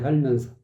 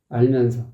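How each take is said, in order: First: The word begins with an added h sound. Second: The word begins directly with a vowel. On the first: The speaker calls it wrong. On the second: The speaker calls it right.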